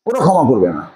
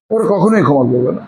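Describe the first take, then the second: First: Said in the usual way. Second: কখনোই leaned on firmly; teacher warning students, weight on কখনোই; stress on কখনোই. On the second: Shown as a demonstration. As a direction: hit কখনোই hard to warn them.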